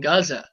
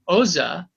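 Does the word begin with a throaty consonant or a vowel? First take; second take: consonant; vowel. First: The word begins with a throaty consonant sound. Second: The word begins with a plain vowel sound. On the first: The speaker calls it right. "it's Gomorrah and Gaza" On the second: The speaker calls it wrong. "it's not Omora and Oza"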